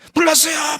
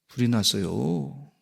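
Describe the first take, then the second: First: It is shouted loudly and urgently. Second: It is said quietly and calmly.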